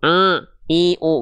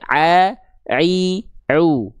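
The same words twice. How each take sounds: First: The sounds are pushed through the nose. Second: The sounds come from the throat, not the nose. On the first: The speaker calls it wrong. "karena masuk hidung" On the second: The speaker calls it right. "tapi harusnya"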